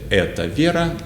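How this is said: It is said with statement intonation. The speaker is stating that this is Vera. "it sounds like you're saying this is Vera"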